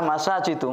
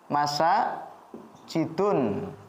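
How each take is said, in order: First: The word ends in a plain u vowel. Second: The word ends with a final n sound. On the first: The speaker calls it right. "Yang benar adalah masajidu" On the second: The speaker calls it wrong. "Jadi bukan masa jidun"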